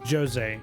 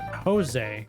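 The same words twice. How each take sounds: First: The name begins with a J sound. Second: The name begins with an H sound. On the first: The speaker calls it right. "They pronounce the J. It is Jose" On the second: The speaker calls it wrong. "It is not Jose"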